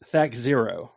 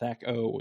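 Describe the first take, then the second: First: The ending is said as the number zero. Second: The ending is said as the letter O. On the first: The speaker calls it right. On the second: The speaker calls it wrong.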